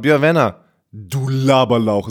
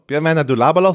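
First: A full stop, then a deeper voice follows. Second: The phrase runs on without a stop, normal voice. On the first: "So richtig so gestoppt und dann richtig ein bisschen tiefer Stimme" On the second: "nicht nur Björn Werner, du Laberlauch"

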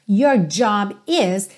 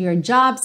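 First: The verb is said as a full separate word. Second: The verb is reduced to an s sound. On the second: "Tá contraído, então você diz your job's a joke"

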